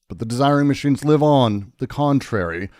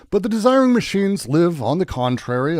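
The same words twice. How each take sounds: First: The voice falls at the end, sounding finished. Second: The voice stays up at the end, continuing. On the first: The speaker calls it wrong. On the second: The speaker calls it right.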